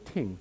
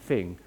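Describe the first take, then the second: First: The first sound is a t. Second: The first sound is a th.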